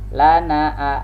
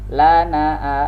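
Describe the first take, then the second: No difference in how they are said.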